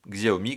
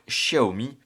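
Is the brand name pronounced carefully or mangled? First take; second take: mangled; carefully. First: The brand name is pronounced in a mangled way. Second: The brand name is pronounced carefully. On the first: The speaker calls it wrong. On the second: The speaker calls it right.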